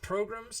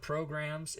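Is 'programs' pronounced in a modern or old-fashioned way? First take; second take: old-fashioned; modern. First: It uses an old-fashioned pronunciation of the word. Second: It uses the ordinary modern pronunciation of the word.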